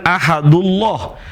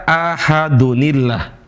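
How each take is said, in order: First: "ahadullah" said with no nun; the mistaken form, ahad straight into ullah; wrong reading. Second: "ahadunillah" with the nun clearly sounded; correct reading. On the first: Teacher names the wrong reading to the class. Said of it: "Bukan ahadullah". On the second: Teacher gives the right reading to the class. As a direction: say ahadun-illah, linking the nun. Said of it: "tapi dibaca". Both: Shown as a demonstration.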